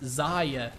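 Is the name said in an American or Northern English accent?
Northern English. Said in a Northern English accent. "my accent, Northern England, is Zarya"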